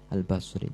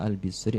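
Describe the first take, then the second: First: The first vowel of the name is a. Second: The first vowel of the name is i. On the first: "Bisa dibaca Al-Bisri ataupun Al-Basri" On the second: "Bisa dibaca Al-Bisri ataupun Al-Basri"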